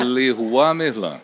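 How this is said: The name is said with French sounds. This is how it is said abroad. "lá fora é"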